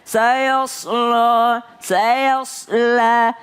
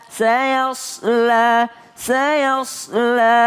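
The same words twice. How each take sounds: No difference in how they are said.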